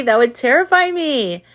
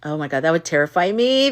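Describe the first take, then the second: First: Terrify pushed up, higher and louder; emphatic repeat. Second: Said in the usual way. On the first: Shown as a demonstration. Reacting to the sister filming the birth, emphatic on terrify. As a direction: lean hard on "terrify".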